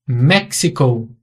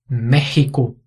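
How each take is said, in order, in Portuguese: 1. O x é um som ks. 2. O x é um som rouco e gutural. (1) "é só em inglês" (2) "são pronunciados com som de dois R's"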